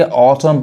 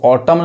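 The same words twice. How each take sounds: First: "ऑटम" ending on M; silent N. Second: "ऑटम" with an N added after M; wrong pronunciation. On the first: Teacher modelling for learners, "ऑटम" with silent N. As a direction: say "ऑटम" with no N after M. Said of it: "एन नहीं पढ़ाता है". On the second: Teacher showing the mistake, "ऑटम" with sounded final N. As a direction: say "ऑटम" as if ending in M-N. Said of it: "नहीं करेंगे तो गलत हो जाएगा". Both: Shown as a demonstration.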